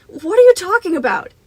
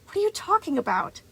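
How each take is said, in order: First: Loud, high-pitched frightened cry; panicked outburst. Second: Put-on high, exasperated boy; annoyed. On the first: Boy confronts Moon in a loud, high panic. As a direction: cry it out in desperate disbelief. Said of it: "snapping out of the stunned silence". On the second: Boy challenges his accuser, high-pitched and annoyed. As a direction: throw the question back high and indignant. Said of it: "a strange flare of annoyance". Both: A narrator's reading.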